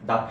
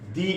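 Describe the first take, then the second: First: The word ends in a short uh vowel. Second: The word ends in a long ee vowel. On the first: The next word starts with a consonant sound. "That's why এই ক্ষেত্রে দা উচ্চারণ হবে" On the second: The next word starts with a vowel sound. "That's why উচ্চারণটা কি হবে? দি"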